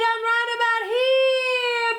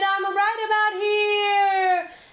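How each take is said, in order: First: It is pitched very high, very excited. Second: It is pitched fairly high, somewhat excited.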